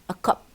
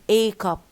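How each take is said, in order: First: The word 'a' is reduced and unstressed. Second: The word 'a' is full and stressed. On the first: The speaker calls it right. "If you pronounce in its weak form" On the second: The speaker calls it wrong. "not a cup"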